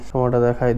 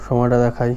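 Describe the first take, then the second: No difference in how they are said.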